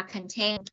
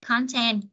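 First: Content as kən-TENT; stress on second syllable. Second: Content as CON-tent; stress on first syllable. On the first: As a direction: reduce the first syllable of content and land on TENT. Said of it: "chúng ta sẽ nhấn vần hai". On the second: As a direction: punch the CON in content, full O vowel. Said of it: "chúng ta nhấn vần một". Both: Shown as a demonstration.

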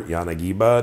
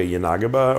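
First: Yanagiba stressed on the third syllable; Yanagiba as yah-nah-GEE-buh. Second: Yanagiba stressed on the second syllable; Yanagiba as yuh-NAH-guh-buh. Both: Shown as a demonstration. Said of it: "depending on how you say it".

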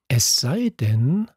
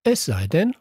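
First: Slow, pausing, leaving it hanging; hesitant trailing off. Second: Echoed back as a rising question. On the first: Luca pondering a plan, trailing off slowly. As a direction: let the thought hang unfinished. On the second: Narrator prodding Luca to go on, rising question. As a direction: push him to finish the thought. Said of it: "fragte ich". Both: A narrator's reading.

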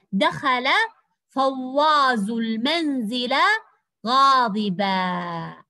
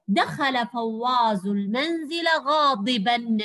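First: Slow, stretched reading with غاضبا falling to a long "aa"; stop on alif. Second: Slow connected reading with غاضبا ending in a clear "n"; measured model sentence, sounding the final n of غاضبا; with tanween. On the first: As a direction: draw out each word and end غاضبا as "ghadibaa", no n. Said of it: "إذا وقفنا على تنوين الفتح ألفا". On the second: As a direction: read it in one run and close غاضبا as "ghadiban". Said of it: "أما إذا نطقناه بالتنوين نقول". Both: Shown as a demonstration.

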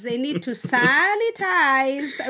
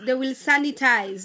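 First: "sanitize" stretched out slowly; drawn-out emphasis. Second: Said in the usual way. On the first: Real, not acted. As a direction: drag out the first vowel of "sanitize". Repeats the word for emphasis.

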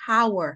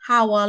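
First: "hour" with a sounded H, like "hower"; wrong pronunciation. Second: "hour" with silent H, like "our"; correct pronunciation. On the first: Teacher rejecting a wrong hour, with the H sounded. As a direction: start "hour" on a breathed H. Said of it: "we don't say hour". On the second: Teacher showing learners correct hour, with the H silent. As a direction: start "hour" straight on the vowel. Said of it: "We say hour". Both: Shown as a demonstration.

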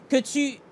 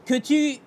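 No difference in how they are said.

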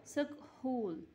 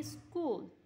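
First: Sounding the h in सकहूल, sak-hool with the h said; wrong pronunciation. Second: स्कूल said as skool, silent h dropped; correct pronunciation. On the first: Teacher shows the class the wrong reading सकहूल, h pronounced. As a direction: spell it out wrongly as सकहूल, every letter voiced. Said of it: "लेकिन इस तरह नहीं होता". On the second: Teacher gives the class the right reading स्कूल, silent h. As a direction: say स्कूल cleanly as skool, no h sound. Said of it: "तो हम इसको पढ़ेंगे". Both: Shown as a demonstration.

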